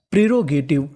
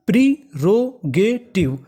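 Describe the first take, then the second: First: Said in the usual way. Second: प्रीरोगेटिव very slow, in four separate beats; stretched, broken-up प्रीरोगेटिव; syllable by syllable. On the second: Shown as a demonstration. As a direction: sound out प्रीरोगेटिव piece by piece. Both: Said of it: "तो पूरी meaning".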